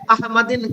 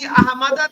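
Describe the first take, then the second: First: The word ends with an in sound. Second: The word ends with a short a sound. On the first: The speaker calls it wrong. "अहमदिन कर दें। ये तो गलत है" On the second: The speaker calls it right. "कहीं अहमदा देखें"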